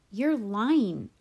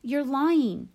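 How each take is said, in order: First: Loud, firm accusation; forceful charge at usual pitch; accusing. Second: High, loud outburst; heated child's yell; screamed accusation. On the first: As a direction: call them out, raised but not screaming. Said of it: "I said". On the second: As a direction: scream it at your sister, pitch jumping up. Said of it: "I screamed at Via". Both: A narrator's reading.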